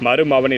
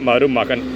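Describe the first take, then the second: First: The middle consonant is a v sound. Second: The middle consonant is a k sound. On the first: The speaker calls it wrong. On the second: The speaker calls it right.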